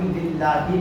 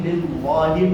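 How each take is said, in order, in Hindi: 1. 'l' बारीक और पतला है। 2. 'l' मोटा और भरा हुआ है।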